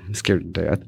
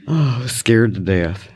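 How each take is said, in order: First: Quieter echo. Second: Said in the usual way. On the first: Real, not acted. Remembering her first teaching days, soft low echo. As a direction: lower and much softer repeat. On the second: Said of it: "first take".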